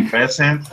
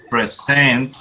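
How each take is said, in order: First: "Present" as the noun, PRES-ent; stress on first syllable. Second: "Present" as the verb, pre-SENT; stress on second syllable. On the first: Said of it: "is a gift". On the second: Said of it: "is the verb". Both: Shown as a demonstration.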